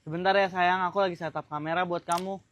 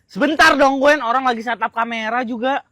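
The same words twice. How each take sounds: First: Soft, lower gentle voice; calm your partner quietly; tender and unhurried; patient soothing. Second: Cross, louder opening; impatient irritation. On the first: First take, he soothes her. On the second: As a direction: put them off testily. Second take, he is impatient. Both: Acted.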